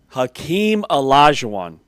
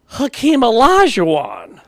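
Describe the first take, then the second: First: It is said in his normal voice. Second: It is said in the friend's high-pitched voice.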